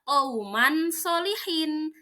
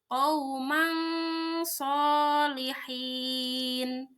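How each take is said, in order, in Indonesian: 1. Bunyi n diucapkan dengan jelas dan penuh. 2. Bunyi n tersembunyi dan sengau. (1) "Tidak dibaca qauman sholihin" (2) "harus samar"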